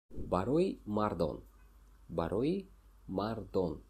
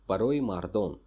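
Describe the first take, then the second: First: Slow, careful repeat of Барои мардон, each syllable clear; slow teaching repeat. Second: Said in the usual way. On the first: Shown as a demonstration. Teacher repeats Барои мардон slowly so viewers can copy. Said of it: "teacher repeats the phrase slowly". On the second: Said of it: "teacher models the phrase".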